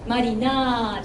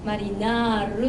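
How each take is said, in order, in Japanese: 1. 最後は長母音で、r はありません。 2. 最後は軽い r の音です。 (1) "マリナーじゃなくて" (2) "マリナールっていうのを入れたい"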